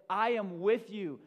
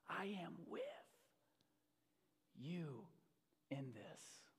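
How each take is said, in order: First: Higher, ringing-out declaration as Jesus; loud proclamation. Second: Soft, near-whispered words with long pauses; hushed assurance. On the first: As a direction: proclaim it loudly to a whole congregation. Preacher proclaims Jesus' words. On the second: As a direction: let each phrase settle quietly. Softly repeats God's words. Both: Acted.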